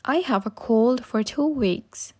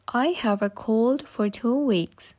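No difference in how they are said.

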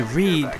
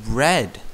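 First: "read" said with a long ee, like reed; correct reading. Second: "red" said with a short e, like the colour; wrong reading. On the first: Explaining English spelling, says "read" as reed. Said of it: "but it's actually read". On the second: Explaining English spelling, says "red" with a short e. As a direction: read it as "red" the way a learner would guess. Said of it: "He thinks it says red". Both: Shown as a demonstration.

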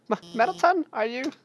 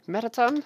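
First: Stammering high-pitched fear; panicked high cry. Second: High worried question; anxious call. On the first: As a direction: cry his name in panic. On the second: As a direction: call out his name, scared. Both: Acted. Calling to the fallen robot.

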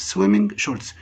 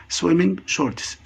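First: Said in the usual way. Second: Swimming shorts drawn out slowly, each part clear; slow model word. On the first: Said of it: "second take at normal speed". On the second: Shown as a demonstration. Teacher to pupils, slow clear model of the word. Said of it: "repeats word, first slow model".

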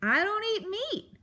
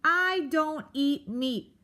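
First: High, emphatic outburst; bellowing. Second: "I don't eat meat" slow, high, each word punched; screamed word by word. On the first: Porcupine correcting the mouse to her face, bellowing. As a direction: bellow it in one exasperated burst. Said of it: "Aerith bellowed into Poppy's face". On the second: Porcupine drumming "I don't eat meat" into Poppy, each word slow and emphatic. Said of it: "Aerith screamed". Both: A narrator's reading.

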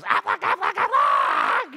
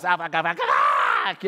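First: High, loud squawking Aflac duck call; honking duck cry, high and loud. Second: A lighter, less pitched mock of the duck's Aflac call; squawking toy duck voice. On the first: Retold or imitated. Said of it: "This duck goes". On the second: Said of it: "it goes".

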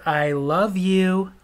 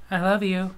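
First: Wife repeats it very slowly; slow drawn out. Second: Said in the usual way. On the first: Retold or imitated. Wife repeating herself, slow and drawn out. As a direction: stretch each word out. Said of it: "I said".

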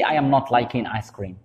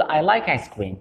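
First: I am not liking ice cream said very slowly; slow wrong example. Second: Said in the usual way. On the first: Shown as a demonstration. Teacher slowly shows the sentence to avoid. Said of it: "ماشي". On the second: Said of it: "نقول".

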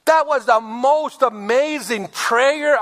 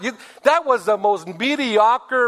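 First: Slow, higher, admiring; gushing praise. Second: Slow mocking scorn; scornful put-down. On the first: Shown as a demonstration. Wife praising her husband's prayer, slow and admiring. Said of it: "The wife should have said". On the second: Wife mocking her husband's prayer, slow and scornful. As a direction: belittle the prayer. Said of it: "she said".

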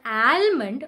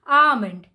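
First: Almond with a sounded l and flat a. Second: Almond as ahmond, l silent. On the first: Teacher showing the wrong almond. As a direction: say almond pronouncing the l. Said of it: "it's not". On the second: Teacher modelling almond. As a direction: say almond with open ah and no l. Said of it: "So it'll be". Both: Shown as a demonstration.

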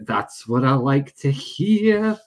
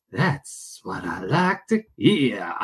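First: Said in the usual way. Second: Slow, low, drawn-out put-on voice; put-on catchphrase voice. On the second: Streamer pleased to hear viewers, slow low mock drawl.

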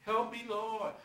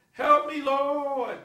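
First: Mocking imitation. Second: Loud, high drawn-out plea; crying out for help. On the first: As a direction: mimic the cry for help mockingly. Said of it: "He's marking you". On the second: Acted. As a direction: wail it out slowly to God, hammed up. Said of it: "You will say".

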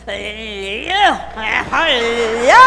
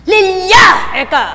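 First: LILIA dragged out in a struggling stutter; mock tongue-tied LILIA, slow to come out; imitated stammer. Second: Loud, higher burst on the name; imitated over-forceful name call; straining, worked-up shout. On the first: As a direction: stammer on the start of LILIA, then burst out the end. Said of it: "Eh, bubulol-bulol pa nun". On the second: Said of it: "Gagalaiti pa".

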